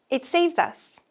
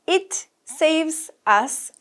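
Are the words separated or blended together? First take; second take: blended; separated. First: The words are linked smoothly together. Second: The words are said separately, not linked.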